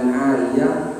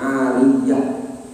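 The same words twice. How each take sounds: First: The y sound is short and single. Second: The y sound is held long and doubled. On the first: "bisa dibaca dengan ariyah" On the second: "dengan menggunakan tasdidnya"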